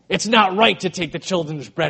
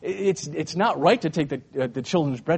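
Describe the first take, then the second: First: The tone is harsh and condemning. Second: The tone is light and teasing. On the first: It is a stern rebuke. "in a very condemning way" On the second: It is a playful jab. "he's kind of ribbing her"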